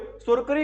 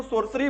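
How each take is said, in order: First: सोरकरी with a 'k' in place of the second 's'; mistaken hard-c pronunciation. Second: सॉर्सरी with an 's' sound in the middle; soft-c pronunciation. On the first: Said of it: "क्यों नहीं बोल रहे हो". (सोरकरी में बीच में 'क' की गलत ध्वनि) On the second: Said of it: "sir इसको ना सोरकरी क्यों नहीं बोलते". (सॉर्सरी में बीच में 'स' की ध्वनि) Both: Shown as a demonstration.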